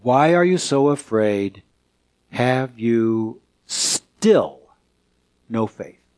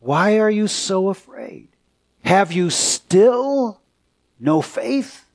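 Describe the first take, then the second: First: Gentle rebuke. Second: Higher take. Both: Acted. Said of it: "Jesus responds by saying".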